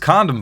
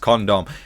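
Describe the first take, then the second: First: It is said in an American accent. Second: It is said in a British accent. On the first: "I'll do the American version" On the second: "I say it so literally because I'm British"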